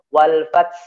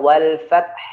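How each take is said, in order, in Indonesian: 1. Bunyi h di akhir dihilangkan. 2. Bunyi h di akhir diucapkan dengan jelas. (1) "tidak boleh wal fath fath fath fath, ini fatal sekali" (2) "Jadi ya wal fath gitu ya"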